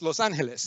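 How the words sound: The name is said with a Spanish pronunciation. It is said for a Spanish-speaking crowd. "With them"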